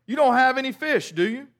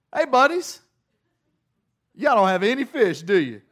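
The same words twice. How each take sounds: First: Called out from the shore, a little higher and louder; Jesus calls to the disciples from the shore, raised voice; calling out. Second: Jesus yells from the shore to his buddies on the boat; yelled out. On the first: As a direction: call across the water to the boat. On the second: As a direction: holler across the water to the fishermen. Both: Retold or imitated.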